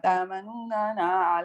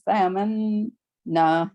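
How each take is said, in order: First: Each n sound is said separately with vowels. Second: The n sounds merge into one doubled n. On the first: The speaker calls it wrong. "it would be too difficult to say" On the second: The speaker calls it right. "So it's"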